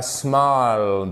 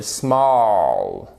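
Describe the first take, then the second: First: "small" with a plain French "ah"; mispronounced small, vowel too close to "ah"; wrong vowel. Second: "small" with a long "aw" vowel; slow, falling small, rhyming with "law"; correct long vowel. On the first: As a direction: say small with an open, unrounded a. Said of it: "et pas small". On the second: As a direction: draw out small, vowel between A and O. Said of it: "entre le A et le O". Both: Shown as a demonstration.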